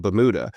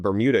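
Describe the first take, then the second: First: "Bermuda" as "buh-MOO-duh"; imitated family way of saying "Bermuda", ba-mooda; mispronounced Bermuda. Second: Said in the usual way. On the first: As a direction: say "Bermuda" without r or y glide. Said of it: "convinced that it was called". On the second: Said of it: "I kept calling it".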